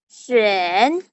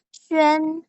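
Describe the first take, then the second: First: The pitch dips low then comes up. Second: The pitch stays high and level.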